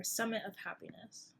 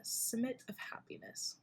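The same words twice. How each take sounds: First: Summit said with the vowel of sun, sum-it; corrected name. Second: Whispered Summit with a short i, like sim-it; tentative whisper, Summit said as sim-it of Happiness; hushed unsure Summit, vowel like in sit; first try at the name. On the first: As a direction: settle on Summit as sum-it of Happiness. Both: Shown as a demonstration. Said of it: "Or Summit of Happiness".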